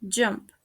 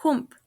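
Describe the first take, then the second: First: "jump" with an English j; correct pronunciation. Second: "hump" for jump, with h and oo; mispronounced. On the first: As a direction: start "jump" with j, short uh vowel. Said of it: "The correct pronunciation is". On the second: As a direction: say "hump" as hoomp. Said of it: "mispronounced is". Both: Shown as a demonstration.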